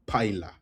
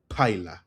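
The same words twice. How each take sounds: The two takes are said the same way.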